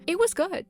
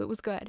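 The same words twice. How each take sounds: First: High, loud burst of praise; excited. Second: Said in the usual way. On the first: Real, not acted. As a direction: blurt it out, thrilled. Gushing about the fan fiction.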